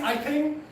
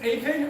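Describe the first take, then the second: First: The first syllable sounds like 'eye'. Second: The first syllable sounds like 'ay'. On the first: This is the speaker's own pronunciation. "I say I ping" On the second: This is another person's pronunciation. "She says A ping"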